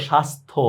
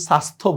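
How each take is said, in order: First: স্বাস্থ্য as "shastho"; sh sound first. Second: স্বাস্থ্য as "sastho", no "sh"; wrong s sound. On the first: Teacher points out S-H versus S, স্বাস্থ্য opening on "sh". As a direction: open স্বাস্থ্য on "sh", then "s". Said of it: "এস এইচ আর এস এর বিষয়টা". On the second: Teacher shows what we don't say, স্বাস্থ্য with "s". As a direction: open স্বাস্থ্য on a thin dental "s". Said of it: "আমরা কিন্তু স্বাস্থ্য বলতেছি না". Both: Shown as a demonstration.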